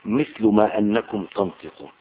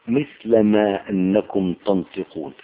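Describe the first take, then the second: First: مثل read with damma as «مِثْلُ»; second reading. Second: مثل read with fatha as «مِثْلَ»; first reading. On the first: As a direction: say «مثل ما أنكم تنطقون» with «مثلُ», a rounded final u. («مثلُ» بالضم) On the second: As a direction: say «مثل ما أنكم تنطقون» with «مثلَ», an open final a. («مثلَ» بالفتح) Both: Shown as a demonstration. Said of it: "أو مثل قراءة".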